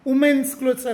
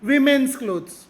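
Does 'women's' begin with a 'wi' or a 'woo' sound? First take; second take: woo; wi. First: The first syllable sounds like 'woo'. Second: The first syllable sounds like 'wi'. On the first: The speaker calls it wrong. "ವುಮೆನ್ಸ್ clothes ಅಲ್ಲ" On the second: The speaker calls it right. "ವಿಮೆನ್ಸ್ clothes ಅನ್ನಿ"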